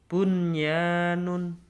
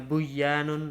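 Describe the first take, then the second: First: The n before the y is clearly pronounced. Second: The n before the y is merged away. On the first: The speaker calls it right. "jelas membacanya harus jelas" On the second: The speaker calls it wrong. "tidak boleh Uh, dibaca"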